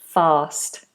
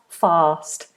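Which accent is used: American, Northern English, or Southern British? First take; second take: Southern British; Southern British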